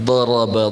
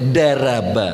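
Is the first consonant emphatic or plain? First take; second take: emphatic; plain. First: The first consonant is an emphatic d sound. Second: The first consonant is a plain d sound. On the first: The reader has learned tajwid well. The speaker calls it right. "kalau orang yang belajar makhraj sudah tajwidnya mantap" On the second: The reader has not learned tajwid. The speaker calls it wrong. "Do, pakai do ya, tapi dia baca daraba"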